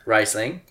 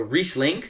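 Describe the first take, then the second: First: Riesling said "RICE-ling", rising; corrected pronunciation. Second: Riesling said "REESE-ling", rising; first-try pronunciation. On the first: Shown as a demonstration. Repeating the cohost's correction, Riesling as "RICE-ling". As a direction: say Riesling with an "eye" in the first syllable. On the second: Real, not acted. Trying out a grape name for correctors, Riesling as "REESE-ling". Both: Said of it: "You both said it different".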